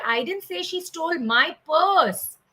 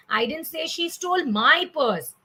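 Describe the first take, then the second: First: PURSE leaned on and stretched, falling; stress on PURSE. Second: MY raised high, purse falling after it; stress on MY. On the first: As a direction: save the punch for the word purse. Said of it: "one thing that I am stressing upon". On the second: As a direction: punch the word my near the end. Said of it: "Then we said". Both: Shown as a demonstration.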